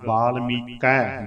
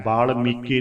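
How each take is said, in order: First: "ਬਾਲ ਮੀਕੈ" slow, ending in a wide open ai. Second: "ਬਾਲ ਮੀਕੇ" ending in a close e; narrow e ending. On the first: Teacher models the correct word, slow open "ਮੀਕੈ". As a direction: draw out the ai of "ਮੀਕੈ". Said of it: "ਦੁਲਾਈਆਂ ਬੋਲਣ ਵੇਲੇ ਵੀ ਖਿਆਲ". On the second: Teacher shows what not to say, close e in "ਮੀਕੇ". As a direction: end "ਮੀਕੇ" on ay. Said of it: "ਬਾਲ ਮੀਕੇ ਨਹੀਂ ਬੋਲਣਾ". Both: Shown as a demonstration.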